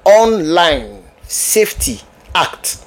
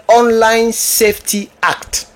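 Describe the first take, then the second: First: Very slow, word by word; slow repetition. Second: Said in the usual way. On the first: Shown as a demonstration. Naming the British law for viewers, slow and separated. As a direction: spell out the name slowly, pausing between words.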